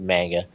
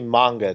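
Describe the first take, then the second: First: It is said with English-style pronunciation. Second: It is said with Japanese-style pronunciation. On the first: "instead of manga" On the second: "I'm probably going to say manga"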